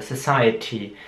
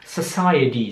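First: The word has a clear British t sound. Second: The word has a softer American t sound. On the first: "im britischen Englisch Society ausgesprochen wird, also mit T am Ende" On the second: "Im amerikanischen Englisch würden sie eher Society sagen"

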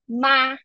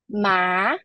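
First: The pitch stays high and level throughout. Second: The pitch rises from middle to high. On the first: "first tone, ... Ma is a high and level pitch" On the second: "second tone, ... Ma is a rising tone"

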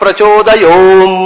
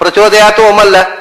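First: The last word and om merge into one. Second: The last word and om are said apart. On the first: The speaker calls it right. "ಹೀಗೆ ಹೇಳಬೇಕು" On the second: The speaker calls it wrong. "ಅಲ್ಲ"

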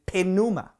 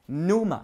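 First: The word starts with a clear P sound. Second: The word starts with an N sound, P silent. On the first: This is the Greek way of saying it. "Pero in Greek, wala yung silent P. Kundi you have to pronounce it pneuma" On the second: This is the English way of saying it. "sa isang slang na English usage, pneuma, silent P"

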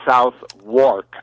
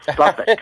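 First: Said in full as 'south' plus 'wark'. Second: Said shortened, sounding like 'suffolk'. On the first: This follows the spelling. "which is spelled South, South Wark" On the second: This is how local British speakers say it. "they pronounce it Suffolk"

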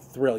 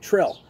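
First: The word begins with a 'th' sound. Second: The word begins with a plain 't' sound. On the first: "You don't say thrill" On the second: "you usually don't say the th. ... You say Trill"

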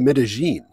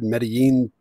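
First: The double L sounds like an English J. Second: The double L sounds like an English Y. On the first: This is how local people say it. "But I think they say Medellin" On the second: This is the textbook Spanish pronunciation. "would be the correct Spanish pronunciation"

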